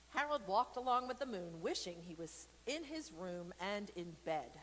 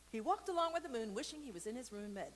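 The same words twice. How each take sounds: First: Lively read-aloud storytelling voice; story narration. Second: Quick reread. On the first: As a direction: read it to the kids, bright and clear. Reads picture book aloud. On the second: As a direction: rattle it off to catch up. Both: A narrator's reading.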